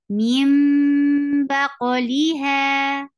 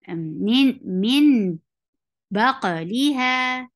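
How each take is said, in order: First: The noon is turned into an m sound. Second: The noon is pronounced as a plain n sound. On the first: The speaker calls it right. "you will change the sound of noon sakin into meem" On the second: The speaker calls it wrong. "If we ignore the rule of Iqlaab, so we will say it like"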